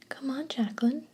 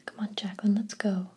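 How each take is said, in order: First: Higher, whiny mocking sister imitation; mock her in a whiny little voice; lightly whined mimicry of the little sister; whiny mockery. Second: Said in the usual way. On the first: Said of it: "mocked in a whiny voice".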